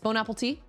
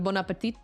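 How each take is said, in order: First: It sounds like the English words bone apple tea. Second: It sounds like the French phrase bon appétit. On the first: The speaker calls it wrong. "Bone apple tea instead of" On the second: The speaker calls it right. "instead of bon appetit"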